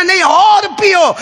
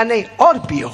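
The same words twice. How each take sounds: First: Much higher, slower and louder insisting; insistent command. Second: Said in the usual way. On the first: Acted. The Prophet insists Abu Hurairah drink more, slow and louder. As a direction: insist firmly, drawing it out. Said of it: "repeated command, insisting". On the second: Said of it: "repeated command".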